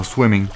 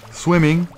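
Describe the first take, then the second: First: Said in the usual way. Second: Swimming jumps high in mock horror; Swimming as a high, groaning exclaim of dismay. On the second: Real, not acted. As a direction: throw Swimming up high in dread. Repeats it in dismay.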